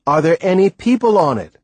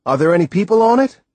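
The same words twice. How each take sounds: First: Loud question falling on people; insistent repeat. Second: Fast, loud, rising question; eager question. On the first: Boy repeats his unanswered question to Timothy, insistent. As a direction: press the question again, insisting. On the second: Boy eagerly asks Timothy about the island, fast rising question. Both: Acted. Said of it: "I repeated".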